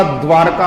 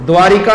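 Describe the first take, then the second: First: "r" straight into "kaa" in द्वारका; द्वारका without i after r; correct, no i. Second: "ri" clearly sounded in द्वारिका; द्वारिका with a needless i after r; wrong extra i. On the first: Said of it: "द्वारका होता है". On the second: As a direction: say द्वारिका as dvaa-ri-kaa. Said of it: "ई की मात्रा बेवजह है". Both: Shown as a demonstration.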